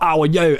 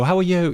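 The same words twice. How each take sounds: First: It is said in a Cockney accent. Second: It is said in a posh British accent. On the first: "like a Cockney accent" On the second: "there's like a more posh one"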